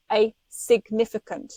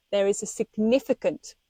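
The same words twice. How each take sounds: First: "a significant" with a weighty, separate "a"; emphatic repeat. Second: Said in the usual way. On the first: Real, not acted. Warning listeners about milking the cord, emphatic "a significant". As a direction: hammer home "a significant", stressing the "a" before it. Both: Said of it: "do you hear me".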